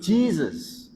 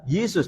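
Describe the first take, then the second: First: The name is said in the English-influenced way. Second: The name is said in the Dutch-influenced way. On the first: This is how Malaysians say it. "Orang Malaysia mengucapkan ... Jesus" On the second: This is how Indonesians say it. "bukan Yesus"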